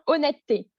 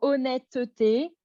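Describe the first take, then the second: First: The middle vowel is dropped and the t is held. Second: Every syllable, including the middle vowel, is pronounced. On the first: "Ça devient" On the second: "c'est très très long"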